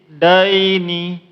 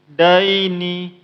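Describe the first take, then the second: No difference in how they are said.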